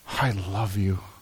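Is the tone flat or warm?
warm. It is said in a warm, tender tone. The words convey deep, sincere affection. The speaker calls it right. "Way different. The tone matches what I'm trying to communicate"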